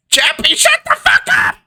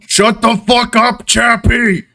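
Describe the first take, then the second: First: Very high screechy offstage yell; shouting from inside. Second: Raised-pitch bellow from offstage. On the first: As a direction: shriek an order out the door at a kid. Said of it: "a different voice shout out". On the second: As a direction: bellow an order at a noisy kid. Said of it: "a bellowing voice come from outside". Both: Acted.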